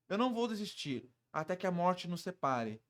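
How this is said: It is said in a warm, loving tone. The speaker is devoted in love. "isso passa um ar de apaixonado"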